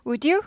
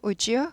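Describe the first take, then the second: First: "would you" as "u-di yu"; unlinked pronunciation. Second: "would you" as "u-jyu"; soft linked pronunciation. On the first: Teacher contrasting for learners, "would you" with D unlinked. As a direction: keep a separate D before "you" in "would you". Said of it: "would you 하지 않고". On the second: Teacher showing the easier way, "would you" linked softly with J. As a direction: glide through "would you" with a J, rising. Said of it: "발음이 더 편하고 부드러워서". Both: Shown as a demonstration.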